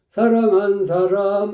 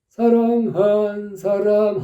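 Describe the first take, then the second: First: All syllables get nearly the same short beat. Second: The syllable 한 is drawn out long. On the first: The speaker calls it wrong. "거의 같은 박자" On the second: The speaker calls it right. "한이 길다니까"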